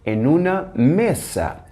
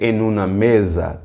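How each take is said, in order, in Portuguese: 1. O s em "mesa" soa como s. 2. O s em "mesa" soa como z. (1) "temos que dizer" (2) "não podemos dizer"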